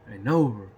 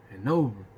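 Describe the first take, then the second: No difference in how they are said.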